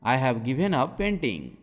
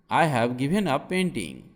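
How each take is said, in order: Both takes have the same delivery.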